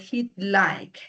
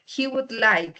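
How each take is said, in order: First: The word would is reduced to a d. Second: The word would is said in full.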